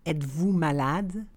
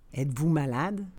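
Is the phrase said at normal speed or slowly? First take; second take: slowly; normal speed. First: The phrase is said slowly and carefully. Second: The phrase is said at conversational speed. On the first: "then slowly said in French" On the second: "and then in communicational Canadian French"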